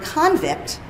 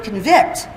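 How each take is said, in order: First: "convict" stressed on the first syllable, CON-vict; syllable stress contrast. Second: "convict" stressed on the second syllable, con-VICT; syllable stress contrast. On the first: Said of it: "the stress of the syllable". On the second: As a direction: hit the last syllable of "convict", as the verb. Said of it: "those are two words". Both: Shown as a demonstration.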